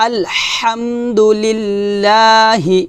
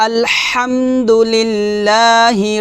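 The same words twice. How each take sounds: The two takes are said the same way.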